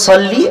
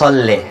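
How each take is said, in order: First: The word ends in an 'ee' vowel. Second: The word ends in an 'eh' vowel. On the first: It is the proper Arabic form. The speaker calls it right. "জেরের উচ্চারণ হচ্ছে সল্লি" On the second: It turns the word into a Persian form. The speaker calls it wrong. "লে বললে এটা ফার্সি হয়ে গেল"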